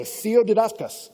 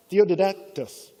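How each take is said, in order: First: Theodidactos spoken slowly, syllable by syllable; careful Greek word. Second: Theodidactos said again, slow but smoother; Greek word repeated. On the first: Preacher coining a Greek word, slow and deliberate. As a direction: sound out Theodidactos like a new coined word. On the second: Preacher repeating the Greek word, slow and smoothed out. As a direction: say Theodidactos once more, settling it. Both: Shown as a demonstration. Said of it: "slams it together".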